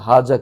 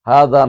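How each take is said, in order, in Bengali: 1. মাঝের ব্যঞ্জনধ্বনিটি z-এর মতো শোনায়। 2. মাঝের ব্যঞ্জনধ্বনিটি নরম th-এর মতো শোনায়। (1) "কিন্তু হাজা কি শুদ্ধ নাকি?" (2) "হাদা না বলা দরকার ছিল"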